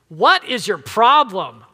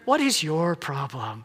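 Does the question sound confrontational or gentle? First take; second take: confrontational; gentle. First: The question sounds confrontational and accusing. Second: The question sounds gentle and caring. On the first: The listener is being blamed or challenged. The speaker calls it wrong. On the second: The listener is being sincerely asked for help. The speaker calls it right.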